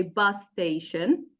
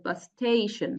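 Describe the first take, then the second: First: Bus station with BUS stressed. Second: Bus station with STATION stressed. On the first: Teacher modelling the correct compound stress on BUS. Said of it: "we say". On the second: Teacher modelling the wrong compound stress on STATION. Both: Shown as a demonstration.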